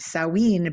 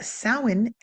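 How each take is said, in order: First: It is said to sound like Halloween. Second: It is said with an Irish pronunciation. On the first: "because they think they, it needs to sound like Halloween" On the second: "is the Irish pronunciation"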